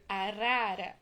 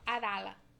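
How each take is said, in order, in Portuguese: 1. A palavra é dita com o som de R brando. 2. A palavra é dita com som de L em vez disso. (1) "O R brando. O brrr" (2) "ela falava arala"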